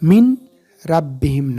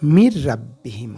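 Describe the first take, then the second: First: The n sound is clearly pronounced before r. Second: The n merges into a doubled r sound. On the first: The speaker calls it wrong. "মিন রাব্বিহিম না" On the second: The speaker calls it right. "মির রাব্বিহিম হবে"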